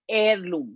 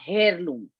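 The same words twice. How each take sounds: First: The word begins without an H sound. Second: The word begins with an audible H sound. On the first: The speaker calls it right. "H is silent. So we pronounce it heirloom" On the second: The speaker calls it wrong. "not heirloom"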